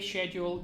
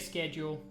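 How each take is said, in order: First: It is said with a British pronunciation. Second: It is said with a North American pronunciation. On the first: "I say schedule" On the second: "you say schedule"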